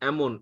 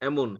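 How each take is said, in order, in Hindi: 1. यह शब्द 'e' स्वर से शुरू होता है। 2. यह शब्द 'e' स्वर से शुरू होता है।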